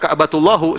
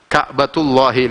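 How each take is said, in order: First: The phrase ends with an 'u' vowel. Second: The phrase ends with an 'i' vowel. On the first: The speaker calls it wrong. "Jangan baca Ka'batullahu, salah" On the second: The speaker calls it right. "mudhaf ilaihnya jadi kasrah"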